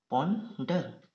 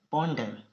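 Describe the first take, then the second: First: ponder in two parts, पॉन, short pause, डर; split into syllables. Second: Said in the usual way. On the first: Shown as a demonstration. Teacher showing students two syllables, ponder split in two. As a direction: break ponder after पॉन.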